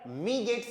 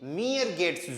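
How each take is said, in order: First: The first word sounds like a short 'mee'. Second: The first word sounds like a longer 'mee-er'. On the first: The speaker calls it wrong. "मी गेट्स नहीं" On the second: The speaker calls it right. "मियर गेट्स जू पर"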